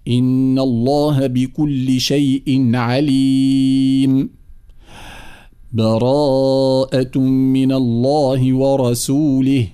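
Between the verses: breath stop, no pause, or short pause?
breath stop. It stops fully with a breath between verses.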